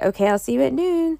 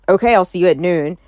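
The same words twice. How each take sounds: First: It sounds upbeat, warm and friendly. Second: It sounds flat, cold and unfriendly.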